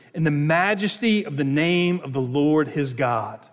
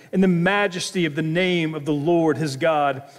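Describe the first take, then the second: No difference in how they are said.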